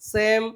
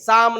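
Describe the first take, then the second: First: The vowel is an 'ay' sound. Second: The vowel is a long open 'ah' sound. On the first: The speaker calls it right. "એનો ઉચ્ચાર અહીંયા એ થશે" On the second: The speaker calls it wrong. "નહીં"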